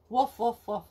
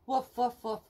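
Both takes have the same delivery.

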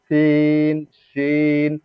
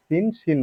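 First: সিন, শিন each with a long held ee; drawn-out ee in সিন, শিন; elongated correct reading. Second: সিন, শিন with short, unheld vowels; unstretched সিন, শিন; short wrong reading. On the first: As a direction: stretch সিন and শিন on a steady level note. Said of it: "এভাবে বলবো, সহি শুদ্ধভাবে বলবো". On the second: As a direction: say সিন, শিন quickly without stretching. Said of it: "বলবো না". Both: Shown as a demonstration.

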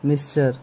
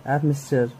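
First: Said in the usual way. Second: एफ मिस्टर said as one quick word, softer; F mister. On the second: Shown as a demonstration. Teacher shows students how he says एफ मिस्टर. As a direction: run एफ into मिस्टर like a single word. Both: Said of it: "मैं तो एफ मिस्टर बोलता हूँ".

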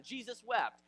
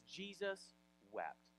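First: JESUS WEPT high and loud; proud comeback. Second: JESUS WEPT slow and soft, pause between the words; solemn reading. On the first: Challenged man proves he knows a verse, proud comeback. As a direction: toss out "Jesus wept" as a triumphant answer. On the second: Reading scripture at Lazarus's death, solemn reading. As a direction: read "Jesus wept" slowly and quietly. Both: Retold or imitated.

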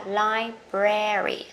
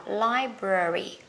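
First: Slow "library" with a clear e in the middle; American pronunciation. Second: Slow British "library" with a schwa in the middle; British pronunciation. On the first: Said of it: "Còn người Mỹ sẽ đọc là âm e". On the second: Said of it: "Người Anh á". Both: Shown as a demonstration.

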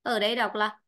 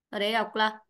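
Both takes have the same delivery.

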